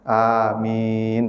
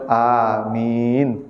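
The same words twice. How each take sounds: No difference in how they are said.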